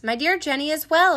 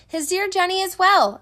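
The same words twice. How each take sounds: First: Stiff, restrained announcement; stiffly. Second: Higher, projected mild yell. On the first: Phineas to the town after reading his wife's letter, stiffly. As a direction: report it formally, holding feeling back. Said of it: "he said stiffly". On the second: Boston to the shuttered houses with Jenny's news, yelling. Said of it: "turned to the shuttered houses and yelled". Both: A narrator's reading.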